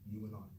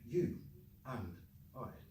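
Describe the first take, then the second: First: The words link with a w sound and reduced 'un'. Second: Each word is said separately with a full 'and'. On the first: This is what native speakers say. The speaker calls it right. "there's a W between the you and the and ... the D was dropped, un" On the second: This is the dictionary form. The speaker calls it wrong. "they would get you and I"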